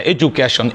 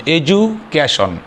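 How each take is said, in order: First: Said in the usual way. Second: education said slowly, broken into parts; syllable breakdown. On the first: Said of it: "এভাবে যে ওয়ার্ডগুলো আমাদের উচ্চারণ করতে তিনবার". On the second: Shown as a demonstration. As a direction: draw out education part by part with a pause inside. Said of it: "উচ্চারণ করতে তিনবার সময় লাগবে". (এডুকেশন ধীরে ধীরে ভেঙে ভেঙে উচ্চারণ)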